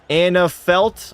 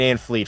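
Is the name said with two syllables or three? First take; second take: three; two. First: The name is said as Anna Felt. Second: The name is said as Ann Fleet. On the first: The speaker calls it right. "is pronounced" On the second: The speaker calls it wrong. "I'm saying"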